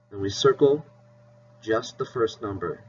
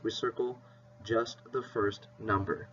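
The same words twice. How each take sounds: First: Said in the usual way. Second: Soft repeat. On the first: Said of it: "teacher repeats the rule". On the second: Shown as a demonstration. Teacher softly repeating the rule to her class. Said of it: "teacher repeats the rule softer".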